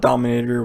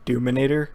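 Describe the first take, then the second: First: The first syllable sounds like 'dom'. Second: The first syllable sounds like 'doom'. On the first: "Dominator would sound really cool" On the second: "it appears to be Doominator, which is a little awkward"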